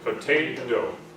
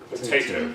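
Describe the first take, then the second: First: Only the first T is aspirated. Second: Both T sounds are aspirated. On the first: "The first T we aspirate, the second one we don't" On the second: "if we're British, we aspirate both of them"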